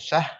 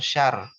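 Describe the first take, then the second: First: Only h is heard at the end. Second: Only r is heard at the end.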